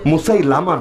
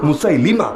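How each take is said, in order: First: The vowel before the final syllable is 'a'. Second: The vowel before the final syllable is 'i'. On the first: The speaker calls it wrong. "এটা ভুল উচ্চারণ" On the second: The speaker calls it right. "মুসাইলামা না"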